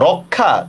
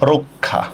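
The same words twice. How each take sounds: First: The first vowel is an open o sound. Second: The first vowel is a closed o sound. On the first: The speaker calls it wrong. "রক্ষা না" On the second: The speaker calls it right. "এটার উচ্চারণ হচ্ছে রক্ষা"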